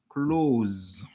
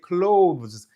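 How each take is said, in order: First: The th sound is dropped, sounding like close. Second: The th sound is pronounced, British style.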